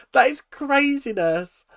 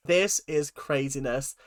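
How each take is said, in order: First: Higher, louder and slower on "That is craziness"; stunned, drawn-out exclamation; emphatic disbelief. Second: Said in the usual way. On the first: Real, not acted. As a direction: lean hard on "That" in disbelief. Repeats the phrase more emphatically.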